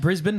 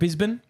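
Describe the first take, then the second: First: The r sound after the B is pronounced. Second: The r sound after the B is dropped. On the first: The speaker calls it right. "it's at Brisbane" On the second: The speaker calls it wrong. "not Bisbane"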